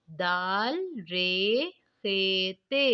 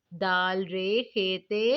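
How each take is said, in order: First: Slow spelling. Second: Said in the usual way. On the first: Shown as a demonstration. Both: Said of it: "अब हम नीचे वाली line पढ़ेंगे".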